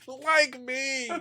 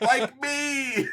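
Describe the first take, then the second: First: High LIKE falling to me; mock punchline. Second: High stressed like me; mock punchline. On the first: Co-host echoing the twist, high. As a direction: land LIKE high then drop. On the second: Host quoting the reviewer's twist, high and stressed. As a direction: hit LIKE with a high drop. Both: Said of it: "immediately follows up".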